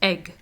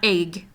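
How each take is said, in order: First: The vowel is the standard short one. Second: The vowel is the regional, altered one. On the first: The speaker calls it right. "The proper pronunciation is egg" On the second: The speaker calls it wrong. "not egg"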